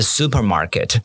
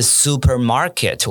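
First: The stress is on the first syllable. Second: The stress is on a later syllable. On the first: The speaker calls it right. "我是supermarket" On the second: The speaker calls it wrong. "而不是supermarket，我不是这样念"

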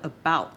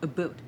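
First: It has an American accent, full 'out' sound. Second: It has a Canadian accent, like 'a boot'.

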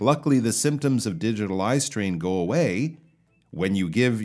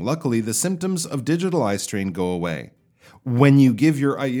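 First: The voice keeps going after 'go away' without dropping. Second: The voice drops after 'go away' like an ending.

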